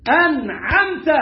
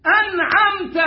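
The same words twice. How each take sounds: First: أنعمت with the نون shown plainly; clear نون. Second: أنعمت with the نون held, pitched much higher; wrong lean on the نون. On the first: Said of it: "تعمل فيها إيه؟ تظهرها". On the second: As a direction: press and stretch the نون in أنعمت. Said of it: "ما تتكاش عليها". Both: Shown as a demonstration.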